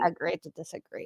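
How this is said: It is said in a Valley Girl voice. This is how others are imagined to say it. "Valley Girl would be saying"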